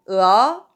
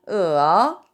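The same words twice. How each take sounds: First: It is said with the second tone. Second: It is said with the third tone. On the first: "2성은" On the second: "3성은"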